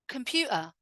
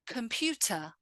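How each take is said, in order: First: The T is cut off by a brief catch. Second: The T is clearly and fully pronounced. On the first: It sounds informal. "now let's look at the other way" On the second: It sounds very correct. "pronounce all of the words with a fully emphasized T"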